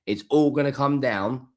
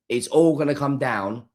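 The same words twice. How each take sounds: The two takes are said the same way.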